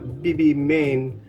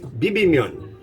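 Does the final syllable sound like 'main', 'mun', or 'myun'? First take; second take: main; myun. First: The final syllable sounds like 'main'. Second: The final syllable sounds like 'myun'. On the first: The speaker calls it wrong. "it's not Bibimain" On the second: The speaker calls it right. "it's Bibimyun, I think"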